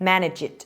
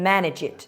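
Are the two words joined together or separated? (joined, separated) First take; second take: joined; joined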